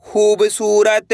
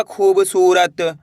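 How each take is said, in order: First: खूबसूरत stretched slowly with long ū and ā; drawn-out blend. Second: Said in the usual way. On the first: Shown as a demonstration. Teacher blending syllables into खूबसूरत, slow and drawn-out. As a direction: draw out each part of खूबसूरत. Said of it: "तो मिलके बन जाएगा". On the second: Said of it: "मिलके बन जाएगा".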